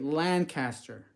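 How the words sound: It uses the speaker's West Coast pronunciation. This is how an outsider says the name. The speaker calls it wrong. "I'm from the west side, west coast of the country. Uh, I say Lancaster"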